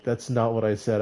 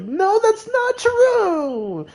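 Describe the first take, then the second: First: Said in the usual way. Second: Very high, slow, stretched-out shrieking denial; overreacting shriek. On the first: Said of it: "instead of just saying". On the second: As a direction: overreact with a long squealing no. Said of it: "I was like".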